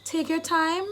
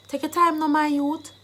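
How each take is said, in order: First: Said in the usual way. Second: Higher Jamaican Patois urging. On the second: Shown as a demonstration. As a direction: urge a youth on in Jamaican Patois. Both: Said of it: "I've given you the Jamaican dialect".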